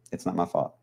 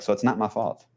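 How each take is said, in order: First: Softer, mumbled under the breath; mumbled repeat. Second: Said in the usual way. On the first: Pretend. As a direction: mutter it again as a joke.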